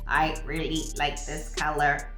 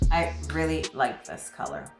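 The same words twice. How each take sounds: First: The voice sounds lively and natural. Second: The voice sounds flat and robotic.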